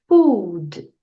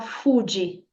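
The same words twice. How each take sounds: First: The final D is soft and barely released. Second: The final D is strongly released, almost a syllable. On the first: The speaker calls it right. "você vai falar essa letra D de forma sutil" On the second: The speaker calls it wrong. "Não precisa falar food, igual muita gente fala fast food"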